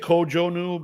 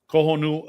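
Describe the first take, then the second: First: The middle consonant is a J sound. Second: The middle consonant is an H sound. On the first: "You could say Kojonu" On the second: "you remember the J as a, ha"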